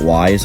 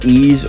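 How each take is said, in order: First: The name is said with a 'w' and 'eye'. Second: The name is said with an 'ee' vowel. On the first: "I used to pronounce it Wise" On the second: "I've heard it's Ease"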